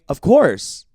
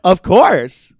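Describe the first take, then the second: First: It is said plainly, without a smile. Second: It is said while smiling, brightening the voice. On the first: The speaker calls it wrong. "it doesn't sound like that" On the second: The speaker calls it right. "I have to be like"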